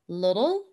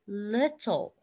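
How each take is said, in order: First: It is said with an American accent. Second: It is said with a British accent. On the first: "American English is little" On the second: "British English is little"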